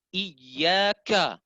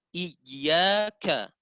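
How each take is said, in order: No difference in how they are said.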